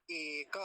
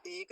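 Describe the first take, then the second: First: एक as e-ka, both syllables held; correct full form. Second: एक as one syllable, ek; wrong clipped form. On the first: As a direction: sound the final a in एक, slowly. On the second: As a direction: end एक right on the k. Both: Shown as a demonstration. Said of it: "तो एक नहीं".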